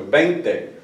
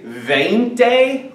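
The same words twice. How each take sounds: First: "veinte" starting with a b; B sound. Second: "veinte" starting with an English v; slow, drawn-out "veinte" with a hard English v; V sound. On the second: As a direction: exaggerate a buzzing v at the start of "veinte". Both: Shown as a demonstration. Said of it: "They always say it like a B sound".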